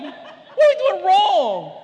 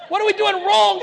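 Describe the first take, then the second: First: Slow, high, laughing; laughing mock despair. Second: High, loud mock cry to his wife; hammed-up plea of a parent at wit's end; mock despair. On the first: Parent repeats the plea to his wife, laughing. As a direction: drag it out through a laugh. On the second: Parent asking his wife what they do wrong, mock shout.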